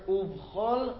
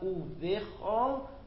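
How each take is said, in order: First: No vowel is heard between v and ch. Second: A short vowel is heard between v and ch. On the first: The speaker calls it right. "but rather Uvchol Meodecha" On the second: The speaker calls it wrong. "It's not Uvechol"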